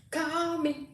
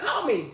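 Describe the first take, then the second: First: High, soft, drawn-out call; sing-song plea. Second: Said in the usual way. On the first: Real, not acted. Host urging a friend to phone her, sing-song. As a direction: stretch CALL out long and high. Repeats it, stretched out for emphasis.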